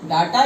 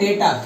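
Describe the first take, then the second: First: The first vowel sounds like 'ah'. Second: The first vowel sounds like 'ay'. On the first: "देखो डाटा या डेटा" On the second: "डेटा भी इसको बोल देते हैं"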